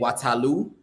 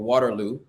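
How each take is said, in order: First: It is said in the local Sierra Leonean accent. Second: It is said in an American accent. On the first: "as they say" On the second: "with my American accent"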